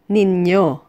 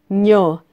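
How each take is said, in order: First: The word is said in two syllables. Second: The word is squeezed into one syllable.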